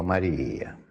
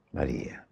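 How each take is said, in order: First: Said in the usual way. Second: "María" dropped low and much softer, almost breathed; soft, tender. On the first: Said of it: "yo me imagino que Jesús le dijo". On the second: Retold or imitated. Jesus gently calling María at the tomb, hushed and tender. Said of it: "Yo no sé en qué tono se dice".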